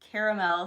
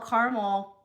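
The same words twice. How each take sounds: First: The word is said with three syllables. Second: The word is said with two syllables. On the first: "C A R capital E M E L" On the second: "C A R M E L"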